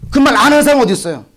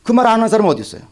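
First: Higher and louder, 하는 pushed; louder repeat. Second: Said in the usual way. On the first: Real, not acted. Preacher pressing the congregation, louder repeat. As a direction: hit it harder the second time. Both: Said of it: "repeated louder".

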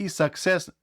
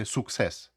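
First: «success» as «saksess»; open A. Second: «success» as «suksess» with a U; wrong U. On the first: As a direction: say «success» with an A first. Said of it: "вимовляється як А". («success» як «саксес») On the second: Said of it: "не вимовляйте success". («success» як «суксес», неправильно) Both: Shown as a demonstration.

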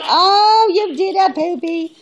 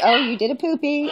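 First: High and loud delighted squeal; excited squeal. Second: Said in the usual way. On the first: Real, not acted. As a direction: burst out in delighted pet praise. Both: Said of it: "repeated more excitedly".

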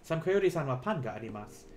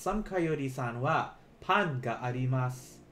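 First: Said in the usual way. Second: Slow, careful model sentence; said slowly. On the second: Shown as a demonstration. Teacher slowing down for students to repeat. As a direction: stretch "Sam Coyote-san wa pan ga arimasu" out word by word. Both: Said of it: "let me say this slowly".

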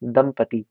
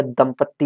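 First: दंपति with one light t, lower; correct single t. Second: दंपत्ति with a held double t; wrong doubled t. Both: Shown as a demonstration. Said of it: "या दंपत्ति नहीं".

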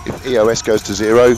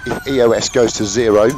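No difference in how they are said.

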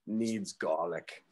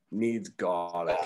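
First: Put-on slow, low Australian accent; deadpan Aussie bushman, slowly. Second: Put-on slow, drawled Australian accent. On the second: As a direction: say it like an Aussie bushman. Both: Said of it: "with this Australian accent".

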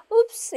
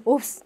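First: Cutesy little oops, pitched up. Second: Startled oops in demonstration; genuinely startled. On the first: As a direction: make the slip-up sound adorable. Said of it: "귀엽게". (귀엽게) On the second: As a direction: say oops as if really caught off guard. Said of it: "진짜 놀래서 하기도 하거든요". (진짜 놀란 듯이) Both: Shown as a demonstration.

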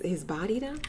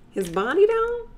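First: Said in the usual way. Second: Playful high ogling tone; high mock-sultry. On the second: Shown as a demonstration. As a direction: stretch body up high, flirty.

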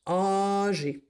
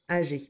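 First: Whispered. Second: Said in the usual way. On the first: Shown as a demonstration. Teacher whispering the next word. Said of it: "whispered word". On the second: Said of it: "repeated aloud".

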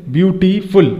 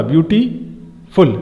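First: Said in the usual way. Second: ब्यूटीफुल said slowly, pausing between its syllables; split into syllables. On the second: Shown as a demonstration. Teacher showing students where ब्यूटीफुल breaks, slow syllables. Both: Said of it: "तो यहाँ हमें रुकना पड़ रहा".

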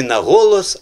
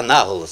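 First: "на голос" as two words, ГО stressed; loud "на голос" with the weight on ГО. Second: "на голос" as one word, НА stressed; "на голос" said as НАголос, first syllable strong. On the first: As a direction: punch ГО in "голос", leaving "на" light. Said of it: "якщо поміняти ... то буде". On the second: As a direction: hit НА in "на голос", letting "голос" fall away. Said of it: "якщо поміняти". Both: Shown as a demonstration.

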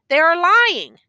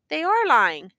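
First: "they are lying" high and loud, then falling; emphatic challenge. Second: "They are lying" a little raised, falling at the end; confirming answer. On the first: Prosecutor closing his challenge to the accused, "they are lying" high and loud. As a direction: hit "they are lying" hard as the clincher. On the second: Accused confirming it to the prosecutor, "They are lying" firmly stated. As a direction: repeat "They are lying" with less force. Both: A narrator's reading.

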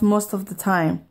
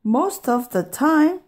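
First: Said in the usual way. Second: High, rising echo question; startled questioning cry; incredulous cry. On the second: A narrator's reading. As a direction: repeat it in disbelief, pitched up. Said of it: "cried Pete".

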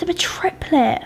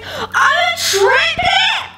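First: Said in the usual way. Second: Shocked triplet cry. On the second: Acted. Pig character learning she is a triplet, high shocked shriek. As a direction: shriek the news with laughing disbelief.

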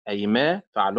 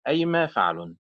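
First: أيما with the stress on ما; stress on second syllable. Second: أيما with the stress on أي; wrong stress, first syllable. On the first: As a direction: lean on the ما of أيما. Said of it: "تنطق على صيغة فعل بنبر". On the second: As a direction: punch the أي of أيما. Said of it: "وليست أيما فعل". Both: Shown as a demonstration.

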